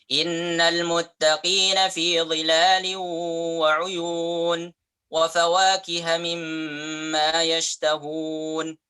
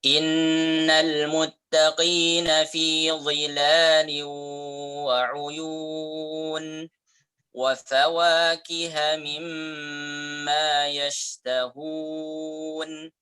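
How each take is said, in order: First: It is recited quickly. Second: It is recited slowly and carefully. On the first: It is also used when leading prayer. "itu lebih cepat" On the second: It suits teaching and learning. "Kita baca dengan tahqiq dulu"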